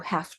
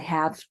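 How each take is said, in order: First: The word ends with a voiceless F sound. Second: The word ends with a voiced V sound. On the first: "it's pronounced more like an F" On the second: "which has a V sound"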